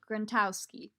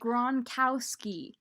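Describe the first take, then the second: First: The name has a T sound in it. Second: The name has no T sound in it. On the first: The speaker calls it wrong. "No T, no T" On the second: The speaker calls it right. "There we go"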